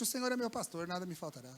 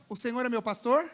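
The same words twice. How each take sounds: First: Quiet, falling psalm, fading down on faltará; hushed reverent reading of "nada me faltará" with a falling close; soft recitation. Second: Verse tossed out as a question, rising on pastor; quoted verse with a rising, doubtful pastor; questioning recitation. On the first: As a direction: murmur the verse as a comfort, letting nada sink low. Reciting psalm to the sick man. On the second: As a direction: ask "O Senhor é meu pastor" with pastor lifted up at the end. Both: Shown as a demonstration.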